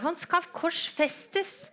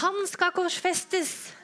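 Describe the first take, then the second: First: High, slow, drawn-out scream; screaming crowd. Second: High, slow, drawn-out shout; crowd shouting. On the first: The crowd screaming back at Pilate, high and drawn out. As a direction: scream it back even more insistently. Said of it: "Men de skriker bare høyere". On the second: The crowd shouting to Pilate, slow high shout. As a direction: bellow it like a crowd demanding death. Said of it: "Og alle roper". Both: Acted.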